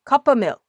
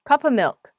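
First: The f in 'of' is nearly dropped. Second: The same.

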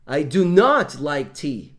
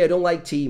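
First: It is said heavily, in a firm, stern tone. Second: It is said lightly, in a casual tone. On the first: A heavier, more emphatic refusal. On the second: A light, relaxed refusal.

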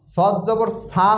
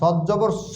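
First: The final syllable ends in a long 'aa' vowel. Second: The final syllable ends in a short vowel. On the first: The speaker calls it wrong. "সদ জবর সা হবে না" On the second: The speaker calls it right. "সদ জবর স হবে, শুধু এককের উচ্চারণ আসবে"

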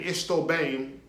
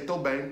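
First: The first word is said in full. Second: The first word is shortened to one syllable. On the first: "Instead of saying estou bem" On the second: "they'll say tô bem"

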